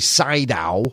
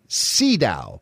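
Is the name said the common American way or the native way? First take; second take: American; native. First: The name is said the common American way. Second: The name is said the native way. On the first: This is how many people in the States say it. The speaker calls it wrong. "A lot of us say Sydow, especially here in the States" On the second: This is how the man himself says it. The speaker calls it right. "I believe the man pronounces his name von Sydow"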